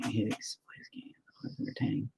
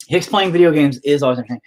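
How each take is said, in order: First: Barely voiced whisper; reading under breath. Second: Said in the usual way. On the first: Real, not acted. Streamer reading a viewer's comment to himself, under breath.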